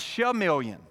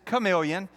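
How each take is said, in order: First: It is said as spelled, with a 'ch' sound. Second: It is said the usual way, with a 'k' sound. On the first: The speaker calls it wrong. "The instructor pronunciated based on the phonetics of the word" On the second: The speaker calls it right. "that is chameleon"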